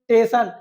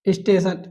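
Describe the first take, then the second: First: The first s sound is dropped. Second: The word starts with an s sound.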